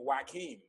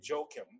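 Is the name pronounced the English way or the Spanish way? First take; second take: Spanish; English. First: The name is pronounced the Spanish way. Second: The name is pronounced the English way. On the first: "people who have a Spanish background might say Joaquin" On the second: "So I marry anglicize it, and I say Joachim"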